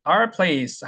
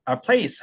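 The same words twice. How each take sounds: First: Our place with a full 'our'; full form. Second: Our place with our as 'ar'; reduced form. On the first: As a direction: sound out both vowels in 'our' of 'our place'. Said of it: "our place 할 때도 있겠지만". (our place에서 our를 온전히 발음) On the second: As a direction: shrink 'our' to 'ar' in 'our place'. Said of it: "our place 하기 때문에". (our place에서 our를 '아r'로 줄여서) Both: Shown as a demonstration.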